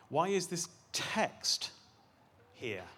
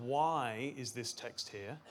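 First: "text" set apart and punched, then a pause before "here"; stress on TEXT. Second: WHY drawn out slowly, the rest following lower; stress on WHY. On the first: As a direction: slowly land hard on text. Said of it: "we can stress different words". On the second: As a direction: lean long on the word Why. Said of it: "to stress different words". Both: Shown as a demonstration.

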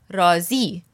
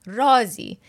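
First: رازی said raa-ZI, weight on the final syllable; stress on second syllable. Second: رازی with the weight on its first syllable, RAA-zi; stress on first syllable. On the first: Teacher repeating the word for satisfied, second-syllable stress on رازی. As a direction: hit the closing "zi" of رازی, not "raa". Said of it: "If you put the emphasis on the second word". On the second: Teacher showing learners the word for a secret, first-syllable stress on رازی. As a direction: stress the opening "raa" of رازی, letting "zi" fall away. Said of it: "the emphasis is on the first word".

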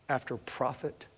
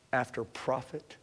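Both takes have the same delivery.

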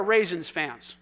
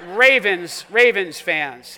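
First: "Raisins" said in place of Ravens; "Raisins fans" with a z sound where the v belongs; slip of the tongue. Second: "Ravens" said loud and drawn out with a clear v; "Ravens fans", loud, slow and deliberate; corrected word. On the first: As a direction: misspeak the team name as "Raisins". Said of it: "I used the word raisins". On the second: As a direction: stress the v in "Ravens" to fix the slip. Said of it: "It's Ravens. I'm sorry". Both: Real, not acted.

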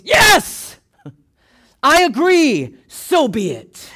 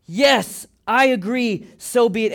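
First: High, loud shout, stretched out slowly; emphatic agreement. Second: Raised, steady declaration of assent; firm emphatic agreement. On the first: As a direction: shout your wholehearted assent, drawing it out. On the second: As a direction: affirm it firmly without shouting. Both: Shown as a demonstration. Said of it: "an emphatic way of voicing your agreement".

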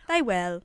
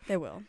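First: Drawn-out, louder Southern twang; Southern accent. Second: Said in the usual way. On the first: Pretend. Host echoes herself playfully, Southern accent. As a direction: stretch it into thick Southern. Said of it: "I have turned you on to the Southern accent". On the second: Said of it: "turned you on to the Southern accent".

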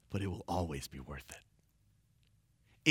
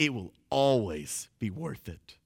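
First: Very low, slow and soft; hushed assurance. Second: Full-voiced assurance with weight on "always"; firm emphatic repeat. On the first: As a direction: drop right down to a quiet, unhurried promise. Preacher softens promise, then repeats it. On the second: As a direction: stress on "always", drawn out in full voice. Preacher repeats promise with more force. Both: Real, not acted.

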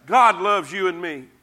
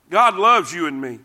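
No difference in how they are said.

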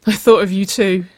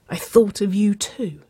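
First: Higher, louder, insistent admission; urgent confession. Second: Higher whimper, falling away at the end. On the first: Waverley admitting her feelings to Nicole, higher and urgent. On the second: Nicole overwhelmed by her lover's confession, whimpering. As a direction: whimper it, overcome. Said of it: "Nicole whimpered". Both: A narrator's reading.

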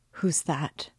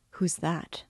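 First: Thick, gasping voice, falling away; a choked, frightened gasp; breathless fright. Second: Thick, gasping voice in horror; breathless fright. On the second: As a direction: gasp it out, terrified. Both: A narrator's reading. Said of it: "in a thick, gasping voice, in agitation".

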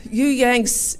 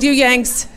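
First: Put-on English accent. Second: Mock English accent, higher and louder. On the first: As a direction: repeat it in a gentler English accent. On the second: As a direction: call out the Yanks in a hammed-up English accent. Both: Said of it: "forgive my English accent".

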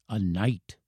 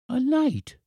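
First: Soft, grave reveal; revealing old professor. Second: Put-on very high child's exclamation; astonished boy. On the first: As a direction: confide it quietly as an old man. Professor reveals his secret identity. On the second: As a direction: echo it as an amazed little boy. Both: A narrator's reading.

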